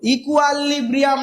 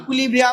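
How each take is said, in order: First: The second syllable is said as 'kwa'. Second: The second syllable is said as 'kwi'. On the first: The speaker calls it wrong. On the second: The speaker calls it right.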